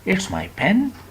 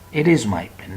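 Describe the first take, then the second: First: It is is shortened into one syllable. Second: It is is said as two full words. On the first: The speaker calls it right. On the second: The speaker calls it wrong.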